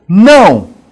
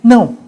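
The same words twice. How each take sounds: First: It is shouted loudly with great intensity. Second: It is said with less force, more softly.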